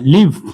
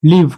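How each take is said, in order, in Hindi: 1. इस शब्द का स्वर 'it' जैसा लगता है। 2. इस शब्द का स्वर 'it' जैसा लगता है।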